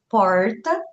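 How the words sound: It is said with a strongly pulled interior R. "aqui mais para o interior nós falamos porta, com R bem puxado"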